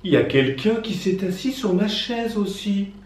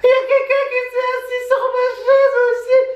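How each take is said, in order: First: It is said in a soft gentle voice. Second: It is shouted loudly.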